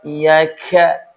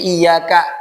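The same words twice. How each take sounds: First: The k is released with a heavy burst of air. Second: The k is released with only light, ordinary breath. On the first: The speaker calls it wrong. "jangan dibaca dengan lafaz iyyaka" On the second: The speaker calls it right. "Tapi iyyaka, ka-nya biasa"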